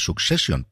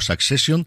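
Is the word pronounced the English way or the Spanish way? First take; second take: English; Spanish. First: It is pronounced with English sounds. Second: It is pronounced with Spanish sounds. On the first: "que por cierto se pronuncia Succession" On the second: "al final siempre digo Succession"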